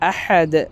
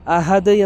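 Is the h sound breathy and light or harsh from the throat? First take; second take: harsh; light. First: The h is a harsh throaty h. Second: The h is a light breathy h. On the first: The speaker calls it right. "അങ്ങനെയല്ല" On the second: The speaker calls it wrong. "പലരും ഹാഇനെ ഹ ആക്കി മാറ്റും"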